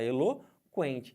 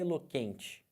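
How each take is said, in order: First: The K is followed by a clear W sound. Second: The K is said without a following W sound. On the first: The speaker calls it right. "Você fala eloquente. ... Porque você fala o U" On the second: The speaker calls it wrong. "Você não fala eloquente"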